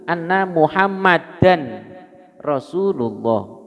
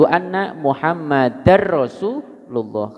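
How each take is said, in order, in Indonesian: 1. Bunyi n yang jelas ada di akhir Muhammadan. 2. Bunyi n melebur ke dalam r yang mengikutinya. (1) "Kalau tidak ada alif lam berarti tanwin tetap" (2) "tanwin bertemu ro, ya, melebur idgham tapi tanpa gu, guna"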